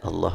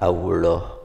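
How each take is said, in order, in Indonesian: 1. Bunyi l-nya tipis dan ringan. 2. Bunyi l-nya tebal dan berat. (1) "bukan Allah orang Sunda" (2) "lamnya tebal ya"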